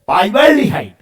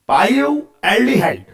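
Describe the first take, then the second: First: It is said quickly, run together. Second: It is said slowly, in two parts.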